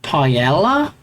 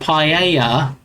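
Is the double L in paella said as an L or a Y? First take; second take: L; Y. First: The middle is said with an L sound. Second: The middle is said with a Y sound. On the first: The speaker calls it wrong. "with L sound" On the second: The speaker calls it right. "pronounce it as a Y sound"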